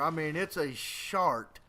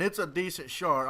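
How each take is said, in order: First: Slow shart, leaning on the sh; stress on sh. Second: Said in the usual way. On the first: Shown as a demonstration. Explaining the word to viewers, stretched sh in "shart". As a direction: drag out the sh in "shart", slower. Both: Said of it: "emphasizing more on the sh than art".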